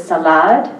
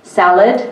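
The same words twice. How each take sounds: First: "salad" stressed on the last syllable, sa-LAD; "salad" said as sa-LAD, end rising; stress on second syllable. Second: Said in the usual way. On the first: Shown as a demonstration. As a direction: push the weight onto the end of "salad". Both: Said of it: "a different stress pattern".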